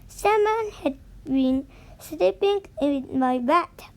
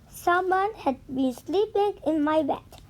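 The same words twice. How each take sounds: First: It is said in a medium-sized voice. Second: It is said in a tiny, small voice.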